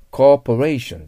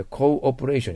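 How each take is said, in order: First: "コーポレーション" with one long o running straight into "po", loud; corporation, not cooperation. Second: "コーオペレーション" with co and a separate o before "pe"; cooperation, not corporation. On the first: Teacher separates lookalike words, emphatic one-vowel corporation. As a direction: hit "コーポレーション" firmly, no break after co. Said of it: "これコーオペレーションじゃないですよ". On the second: Teacher shows the wrong word, clearly split co-operation. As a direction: break "コーオペレーション" into co plus operation. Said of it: "じゃないですよ". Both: Shown as a demonstration.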